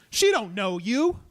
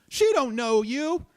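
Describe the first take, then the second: First: Soothing, slow. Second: Soothing, higher and slow. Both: Retold or imitated. Calming an armed, angry stranger.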